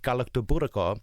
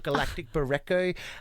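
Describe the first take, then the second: First: The word begins with 'galakto' and flows smoothly. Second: The word begins like the English word 'galactic'.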